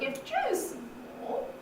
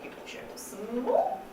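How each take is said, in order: First: The phrase carries a full rising tune. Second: The phrase carries a simple rising tune. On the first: "with a full rise" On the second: "with a nice simple rising tune in it"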